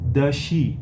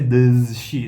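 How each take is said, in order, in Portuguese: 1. O som de z em does não é pronunciado. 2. O som de z em does é pronunciado. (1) "Sumiu, não tem Z nenhum ali" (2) "Não vai ser does she, não tem como"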